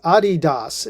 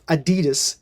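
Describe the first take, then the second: First: Adidas is said the non-American way. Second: Adidas is said the usual American way. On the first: This is how the brand itself says it. The speaker calls it right. "that is the correct spelling or pronunciation" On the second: This is how Americans have always said it. The speaker calls it wrong. "as we Amer- Americans have pronounced it all these years"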